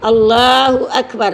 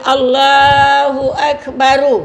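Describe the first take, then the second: First: The final r is said with no vowel after it. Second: The final r is followed by an added u vowel. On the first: The speaker calls it right. "Jadi akbar tu ra-nya tu mati. ... sukun ra-nya ya" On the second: The speaker calls it wrong. "Jangan Allahu Akbaru. Ha, tak boleh ya"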